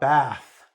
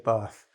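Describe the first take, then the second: First: It is said with an American accent. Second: It is said with a British accent. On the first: "So I should say it like an American" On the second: "I would say bath"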